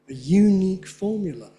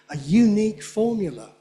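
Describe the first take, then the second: Both takes have the same delivery.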